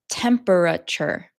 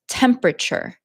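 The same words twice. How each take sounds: First: Every syllable is pronounced fully and carefully. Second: The middle syllables are shortened and run together. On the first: The speaker calls it wrong. "I did not say temperature" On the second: The speaker calls it right. "when you say it like a normal native English speaker"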